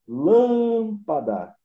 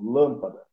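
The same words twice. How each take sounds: First: "Lâmpada" called out loud and high, LÂM very long; stress on LÂM. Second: Said in the usual way. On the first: Shown as a demonstration. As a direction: stretch and belt the LÂM in "Lâmpada", slowly. ("Lâmpada" chamada bem alto, com LÂM alongado) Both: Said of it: "O lam é a tônica".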